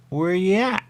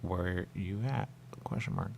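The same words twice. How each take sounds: First: Higher, louder, rising question; high put-on voice. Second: Softer, slow reading aloud; flat quiet read. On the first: Player asks the screen in a high playful voice. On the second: Shown as a demonstration. Player reads the on-screen words, quiet and slow. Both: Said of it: "And I see it at me".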